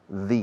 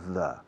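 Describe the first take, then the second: First: The vowel is long, like 'thee'. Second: The vowel is short, like 'thuh'. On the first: The speaker calls it right. "when you have a vowel, the pronunciation of the definite article is the" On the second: The speaker calls it wrong. "no the"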